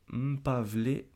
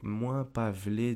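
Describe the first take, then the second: First: It begins with a short bare m sound. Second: It begins with the full syllable mwen. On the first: "c'est un peu difficile à prononcer là" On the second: "on pourrait dire moins si jamais vous n'arrivez pas à prononcer"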